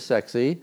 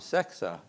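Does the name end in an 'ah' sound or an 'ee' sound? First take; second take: ee; ah. First: The name ends in an 'ee' sound. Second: The name ends in an 'ah' sound. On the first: This is how the local townspeople said the name. "everybody in Canton, they called it Sexy's" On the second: This is the original Norwegian way of saying the name. "That's how at least you would pronounce it in Norwegian"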